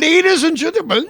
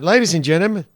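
First: It is said in a put-on Irish accent. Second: It is said in the speaker's ordinary accent.

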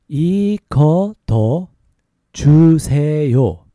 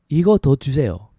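First: It is said slowly. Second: It is said faster.

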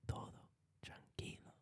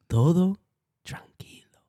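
First: It is spoken in a whisper. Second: It is spoken in a normal voice.

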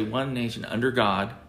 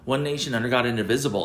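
First: There is a pause after 'under God'. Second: It runs straight on without a pause.

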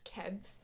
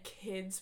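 First: The vowel is an 'eh' sound. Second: The vowel is a plain short 'ih' sound.

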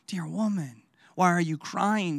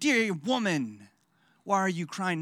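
First: It sounds gentle and tender. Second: It sounds angry and frustrated.

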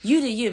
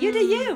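First: It sounds irritated and dismissive. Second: It sounds warm and supportive.

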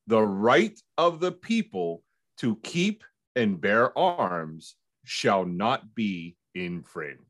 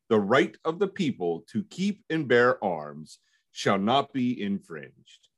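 First: It is read more slowly. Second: It is read at a normal pace.

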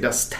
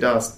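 First: The word has an odd, distorted vowel sound. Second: The word has its ordinary everyday pronunciation. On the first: "They say dust. ... weird pronunciation things" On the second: "they don't say dust"

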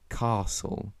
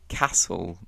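First: It has the long southern English ah vowel. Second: It has the short northern English a vowel. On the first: "in the south of England, they will say castle, this ah sound" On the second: "I say castle"

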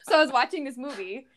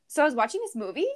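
First: The pitch falls at the end like a statement. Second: The pitch rises at the end like a question.

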